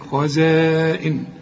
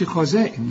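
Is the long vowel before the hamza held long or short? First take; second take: long; short. First: The vowel before the hamza is held long. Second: The vowel before the hamza is short. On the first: The speaker calls it right. "لازم تمد" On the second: The speaker calls it wrong. "ما تقولش خزائن"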